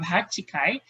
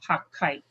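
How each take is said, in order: First: The word has four syllables with a full vowel. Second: A held double consonant replaces the middle vowel. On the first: The speaker calls it wrong. "instead of hachikai" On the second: The speaker calls it right. "it will turn to hakkai"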